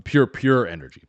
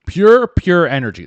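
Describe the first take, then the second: First: Said in the usual way. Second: PURE, PURE punched out loud; emphatic PURE. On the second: Shown as a demonstration. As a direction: hit the first "Pure" hard and loud. Repeats the slogan with more force.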